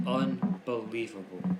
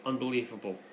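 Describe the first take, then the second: First: "Unbelievable" slowly, with UN split off; drawn-out UNBELIEVABLE. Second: Said in the usual way. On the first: Real, not acted. Host decrying officials' complaints, slow, emphatic "Unbelievable". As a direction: stretch out "Unbelievable", breaking it after "Un".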